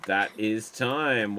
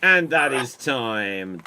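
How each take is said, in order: First: Said in the usual way. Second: Slow, weighty announcement of time up; slow time call. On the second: Shown as a demonstration. Host ending the round, slow and weighty. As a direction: drag it out like a host calling time.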